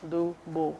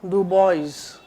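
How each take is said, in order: First: The name ends in a plain 'bo' sound. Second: Every letter of the name's ending is sounded. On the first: The speaker calls it right. "She has to be called Bo" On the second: The speaker calls it wrong. "Don't call her Dubois"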